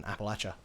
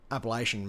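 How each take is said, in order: First: "Appalachia" said like "apple-at-cha"; short "latch" in the middle of "Appalachia"; alternative local pronunciation. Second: "Appalachian" with a long "lay" in the middle; mainstream pronunciation. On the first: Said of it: "rather than Appalachia". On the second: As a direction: say "Appalachian" as appa-LAY-shun. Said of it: "may be pronounced that way". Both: Shown as a demonstration.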